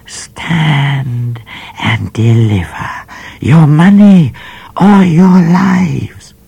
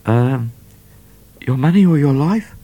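First: High, put-on menacing call from the bush, fading to a whisper; a high disguised robber voice, ending whispered; bushranger's call. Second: Higher, hesitant, shy asking; a lightly voiced shy robber; shyly. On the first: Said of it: "a voice called out of the bush". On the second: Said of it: "rather shyly".

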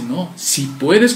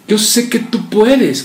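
First: Si puedes slow, rising on puedes like a doubtful question. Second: Puedes said slowly as a firm falling statement; confident statement. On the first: Father questioning Jesus' power, doubtful rising question. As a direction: ask si puedes with a questioning rise. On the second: Believer telling the Lord he can heal, firm statement. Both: Shown as a demonstration. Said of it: "como una interrogante".

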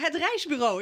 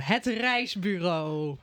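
First: Said in the usual way. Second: Grand title announcement. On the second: Shown as a demonstration. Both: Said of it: "Ik heb weer een mooie titel verzonnen".

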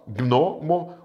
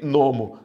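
First: Gnomo in two beats, gno-mo; correct syllable split. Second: Gnomo broken as gui, pause, nomo; wrongly split syllables. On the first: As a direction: say gnomo with g and n joined, then mo. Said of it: "uma sílaba, duas". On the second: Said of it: "Eu não posso escrever". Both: Shown as a demonstration.

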